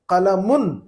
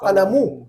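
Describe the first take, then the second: First: The word ends with an n sound. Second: The word ends in a vowel, with no n. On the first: The word stands alone, not joined to another. "कलमुन कहूंगा मैं" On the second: The word is joined to the following word. "उन की आवाज को खत्म कर दूंगा मैं, ऊ कहूंगा"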